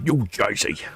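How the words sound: It is said in a put-on American accent.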